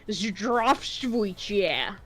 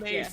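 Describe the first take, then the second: First: Every written letter of the word is pronounced. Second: Some written letters are dropped and left silent. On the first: The speaker calls it wrong. "he was pronouncing them all" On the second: The speaker calls it right. "It's pronounced"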